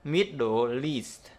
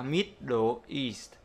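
First: "Middle East" slowly joined as "mid-do-least"; slow MIDDLE EAST with EAST starting on an l; linked sounds. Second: "Middle East" in separate pieces, EAST starting on its vowel; unlinked. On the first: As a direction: carry the l of MIDDLE onto EAST. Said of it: "nối luôn". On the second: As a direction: say "mid-dle, east" with no l carried over. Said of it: "không bao giờ đọc là". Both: Shown as a demonstration.

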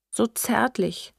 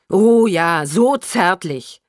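First: Slow, high, tearful. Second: Loud, drawn-out mockery; mock the words back, slow and forceful; bitter sarcasm. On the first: Mother recalls his tenderness, tearful. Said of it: "sagte unsere Mutter weinend". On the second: Daughter echoes mother's fond words, bitterly sarcastic. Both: A narrator's reading.

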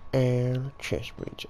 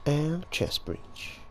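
First: Quoting a catchphrase. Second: Slow, drawn-out catchphrase; quoting a catchphrase. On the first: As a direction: drawl it out, leaning in. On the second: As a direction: stretch it out like a quoted meme. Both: Retold or imitated. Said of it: "Quoting our chest breach again".

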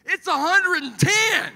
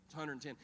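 First: Very high, drawn-out shout; hammed-up, high-pitched incredulous bellow; exasperated yell. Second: Said in the usual way. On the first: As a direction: holler it slowly in comic outrage. Exasperated retort to the cliché.

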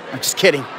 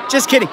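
First: Said in the usual way. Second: Much higher, playful "Just kidding"; playful retraction. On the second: Real, not acted. Host teasing a student about her phone, playful retraction. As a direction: lift "kidding" up high, teasing.

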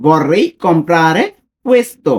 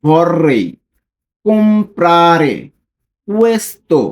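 First: Said in the usual way. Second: Slow, word by word with pauses; each word separated, careful and slow; read slowly. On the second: Shown as a demonstration. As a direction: spell it out slowly for learners. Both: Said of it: "আমি slowly যদি পড়ি".

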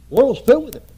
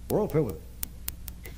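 First: Preached shout. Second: Quiet slow echo. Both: Real, not acted.

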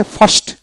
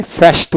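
First: "ফাস্ট" the British way, with an open "ah"; British broad back A in "ফাস্ট"; British pronunciation. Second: "ফাস্ট" the American way, with the vowel of "cat"; American short front A in "ফাস্ট"; American pronunciation. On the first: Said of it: "আর ব্রিটিশে ফাস্ট". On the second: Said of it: "আমেরিকানে ফাস্ট উচ্চারণ হবে". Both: Shown as a demonstration.

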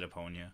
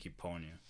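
First: Eponia opening on a soft uh; speaker's own pronunciation. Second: Eponia opening on an ee; translator's pronunciation. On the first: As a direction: say Eponia as uh-POHN-ya. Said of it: "how to pronounce Eponia. I always said". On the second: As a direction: say Eponia as ee-POHN-ya. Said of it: "I think the translator said". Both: Shown as a demonstration.

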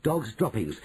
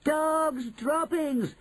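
First: Said in the usual way. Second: High, drawn-out witches' shout; shouted cry. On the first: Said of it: "dreaded cry of". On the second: Acted. Witches take up the cry, high long shout. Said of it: "they shouted".

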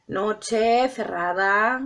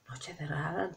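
First: "Noche cerrada" drawn out very slowly for drama; slow dramatic. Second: "noche cerrada" dropped to a much softer, lower hush; hushed dramatic. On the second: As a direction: sink "noche cerrada" down to a soft murmur. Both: Shown as a demonstration. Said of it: "Para hacerlo más dramático".

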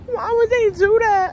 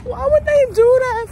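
First: A tearful, higher plea; real crying, raised pitch. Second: Louder, much higher crying wail; real tearful wail. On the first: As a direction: ask it through real tears. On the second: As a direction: let it burst out as a sobbing wail. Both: Real, not acted. Crying over the movie ending.

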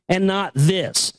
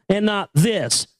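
No difference in how they are said.

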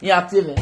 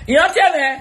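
First: Said in the usual way. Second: "Yín á sí ewé" again, much higher and louder; loud call. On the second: Shown as a demonstration. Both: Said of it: "repeated louder".

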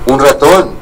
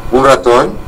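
First: "Un ratón" said as a falling statement. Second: "¿Un ratón?" with a rising doubtful question tune. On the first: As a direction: close "ratón" with a firm falling tune. Answers wife's question, statement. ("Un ratón" con entonación descendente) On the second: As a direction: lift "ratón" up as a disbelieving echo. Wife echoes doubtfully. ("¿Un ratón?" con entonación ascendente, incrédula) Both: A narrator's reading.

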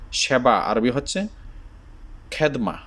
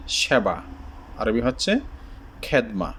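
The two takes are said the same way.

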